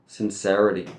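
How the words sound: It is said in an American accent.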